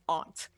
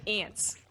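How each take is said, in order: First: Aunt said with an open ah, like ont; broad open vowel in aunt, rhyming with want; aunt as ahnt. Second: Ants with the flat vowel of cat; aunt as ant. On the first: Arguing how it should be pronounced, aunt as AHNT. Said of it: "it should be pronounced aunt". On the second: Complaining how people all say it, ants with a cat vowel. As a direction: say ants just like the insects. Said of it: "But people all say ants". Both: Shown as a demonstration.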